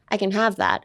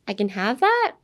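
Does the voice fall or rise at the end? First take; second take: falls; rises. First: The voice falls at the end like a statement. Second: The voice rises at the end like a question. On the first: It is a plain statement. The speaker calls it wrong. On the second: It expresses hesitation, asking if it's really okay. The speaker calls it right. "It raises the intonation at the end to make it a question"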